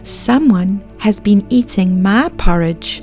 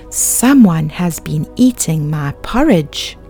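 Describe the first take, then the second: First: It is said in a tiny little voice. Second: It is said in a great big voice.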